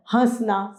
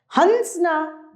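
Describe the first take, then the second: First: हंसना with a nasal vowel, hã-sna; right form, chandrabindu. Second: हंसना with a full nasal n, hans-na; wrong form, anusvar. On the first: Teacher gives हंसना with a nasal vowel. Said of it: "इसमें चंद्र बिंदु आता है". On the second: Teacher reads the wrong हंसना with a hard n, slowly. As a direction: say हंसना with a clear n before s. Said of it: "हंसना गलत है". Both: Shown as a demonstration.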